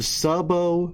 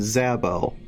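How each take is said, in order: First: The word begins with an S sound. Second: The word begins with a Z sound.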